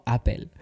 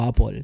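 First: Apple said the Spanish way, ending in apel; Spanish-style Apple. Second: Apple said the English way, ending in an o-like sound, apol; English-style Apple. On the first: Telling listeners how he really says Apple, Spanish pronunciation. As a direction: read Apple as if it were a Spanish word, apel. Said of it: "te digo Apple". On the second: Telling listeners which Apple he avoids, English pronunciation. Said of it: "no te digo Apple". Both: Shown as a demonstration.

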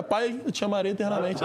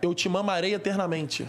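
First: "amarei" read plainly as written; correct reading. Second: "mamarei" said in place of "amarei", slow and deliberate; misreading on purpose. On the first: Admitting the joke, reading the tattoo correctly "amarei". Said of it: "Ah, mentira". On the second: Reading friend's tattoo aloud, slowly joking "mamarei" misread. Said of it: "Não tá escrito isso". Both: Shown as a demonstration.

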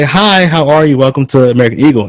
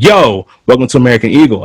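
First: Higher, proper customer-service greeting; polite store greeter. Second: Imitated casual, abrasive store welcome; abrasive greeting. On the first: Retold or imitated. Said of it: "people say, 'Hi". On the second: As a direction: toss out the greeting with a blunt YO. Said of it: "kind of abrasive".

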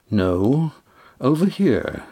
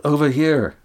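First: Calm correction, not raised in volume; strangely calm. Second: Higher call, falling at the end. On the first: Damon answers from behind them, strangely calm. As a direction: answer mildly, lifting the pitch on "over here". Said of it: "Damon's voice, strangely calm". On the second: Estrella calls Damon toward the boat, raised-pitch call. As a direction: call out to someone in the water. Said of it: "Estrella called". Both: A narrator's reading.

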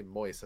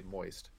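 First: "moist" with the final T dropped, MOYS. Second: "moist" with its final T sounded, MOYST; pronounced T. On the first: Host quotes what he doesn't say, no T on "moist". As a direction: leave the T off "moist". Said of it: "I don't say moist". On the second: Host defends how he talks, T sounded in "moist". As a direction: finish "moist" on a clear T. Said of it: "I say moist". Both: Shown as a demonstration.

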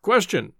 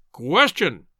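First: A mildly raised, booming call; booming interjection. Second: A fuller, louder booming call. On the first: Professor heckles the lecturer, a mild mock boom. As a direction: boom one word from the back of the platform. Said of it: "boomed a voice from the platform". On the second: Professor heckles the lecturer again, a louder boom. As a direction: boom it out, bigger this time. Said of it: "boomed the voice once more". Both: Acted.

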